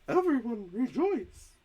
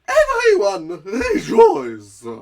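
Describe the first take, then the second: First: It is said more quietly. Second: It is said very loudly.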